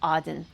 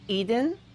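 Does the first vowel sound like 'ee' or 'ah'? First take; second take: ah; ee. First: The first vowel sounds like 'ah'. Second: The first vowel sounds like 'ee'. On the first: This is the reconstructed ancient name. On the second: This is the usual modern name.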